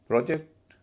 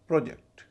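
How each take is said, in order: First: The stress is on the second syllable. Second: The stress is on the first syllable. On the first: It means to cast or estimate. "Verb है project" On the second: It names a planned piece of work. "Noun है project"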